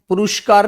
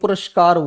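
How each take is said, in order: First: The vowel after the first r is long oo. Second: The vowel after the first r is short a. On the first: The speaker calls it wrong. "पुरस्कार नहीं बोलते" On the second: The speaker calls it right. "पुरस्कार बोलते"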